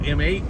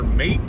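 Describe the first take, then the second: First: It is said as the letter M, then eight. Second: It is said as one syllable, mate. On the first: "what some call M eight mode" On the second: "or mate"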